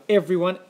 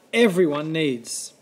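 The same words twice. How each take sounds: First: "everyone" pushed higher; stress on everyone. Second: "everyone needs" slowed right down and drawn out. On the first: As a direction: lift "everyone" up in pitch. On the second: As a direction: spell out "everyone needs" slowly. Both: A narrator's reading. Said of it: "I yelled at the Lorax".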